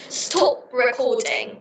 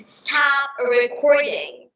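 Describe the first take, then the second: First: Slow British-accented demo. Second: Slow, smooth American accent. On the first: Showing partner how British say it, slow British accent. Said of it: "In the British accent, we say". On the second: Showing partner the smoother American version, American accent. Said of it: "But in America, we say". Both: Shown as a demonstration.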